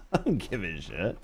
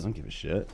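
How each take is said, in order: First: Laughing it off. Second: Low, quieter throwaway mumble; muttered shrug. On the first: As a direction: chuckle through the words, quieter. Repeats line with a laugh. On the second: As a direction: toss it off under your breath. Repeats line, shrugging it off. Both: Real, not acted.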